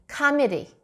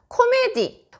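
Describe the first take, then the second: First: The first vowel sounds like 'a'. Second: The first vowel sounds like 'o'. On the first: The speaker calls it right. "거의 카메디, 카메디 정도가 되게끔 어, 발음을 해주시면 되겠습니다" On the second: The speaker calls it wrong. "코미디라고 이제 코메를 그대로 해주시면 못 알아들을 수가 있고요"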